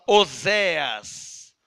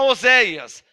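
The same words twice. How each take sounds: First: "Oséas" slow, without the I glide; archaic pronunciation. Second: Said in the usual way. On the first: Shown as a demonstration. Preacher quoting the old version, "Oséas" said slowly as "O-zé-as". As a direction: draw out "Oséas" as "O-zé-as". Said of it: "Essa versão fala". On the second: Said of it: "A nossa Bíblia fala".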